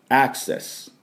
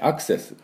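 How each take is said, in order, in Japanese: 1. 最初の母音は鼻にかかった英語の'æ'です。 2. 最初の母音は普通の日本語の'a'です。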